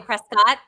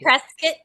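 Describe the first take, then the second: First: The ending does not sound like 'biscuit'. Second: The ending sounds like the end of 'biscuit'. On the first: The speaker is not from the area. The speaker calls it wrong. "Where you from?" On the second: The speaker is from the area. The speaker calls it right. "that means you're from here"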